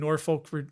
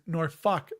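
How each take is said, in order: First: Said plainly, not sounding like a swear word. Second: Said the local way, sounding like a swear word. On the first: "not me" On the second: "That's how they say it"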